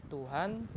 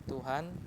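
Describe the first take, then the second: No difference in how they are said.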